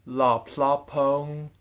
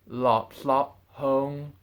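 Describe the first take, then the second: Both takes have the same delivery.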